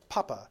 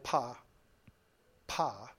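First: It is said smoothly in one go. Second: It is said haltingly with a break.

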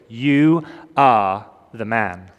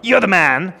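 First: It is said accusingly, as a charge. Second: It is said admiringly, as praise.

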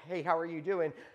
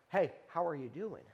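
First: It sounds like a casual, passing greeting. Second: It sounds like a sincere, caring question.

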